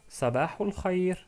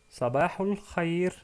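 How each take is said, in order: No difference in how they are said.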